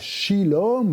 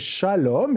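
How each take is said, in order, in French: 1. La première voyelle est le son i. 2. La première voyelle est le son a. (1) "C'est pas shilom" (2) "c'est shalom"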